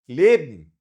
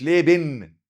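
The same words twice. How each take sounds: First: ليبن short and loud, ending swallowed into m; merged ending. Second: ليبن with a full separate "ben", loud; unmerged, mistaken ending. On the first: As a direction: say ليبن as "lebm", dropping the e. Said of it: "اضغمها كأنها إم". (نطق ليبن بإدغام آخرها ميم) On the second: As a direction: spell out both syllables of ليبن, le-ben. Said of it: "مش ليبن". (نطق ليبن غلط بآخر واضح "بِن") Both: Shown as a demonstration.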